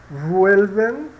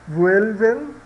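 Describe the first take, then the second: Both takes have the same delivery.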